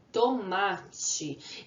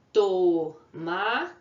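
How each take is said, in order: First: Said in the usual way. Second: "Tomate" split into to, ma, te with clear pauses; teacher breaking "Tomate" into syllables. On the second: Shown as a demonstration. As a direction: sound out "Tomate" slowly in three separate beats. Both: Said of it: "na separação de sílabas".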